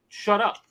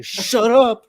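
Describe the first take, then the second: First: Higher mock snap; passionate shut up. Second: Higher, louder mock snap; imitating passionate shut up. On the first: Dad telling his son to shut up, mock angry. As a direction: bark it with feigned passion. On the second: Friend mimicking the dad's heated shut up. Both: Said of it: "with such passion".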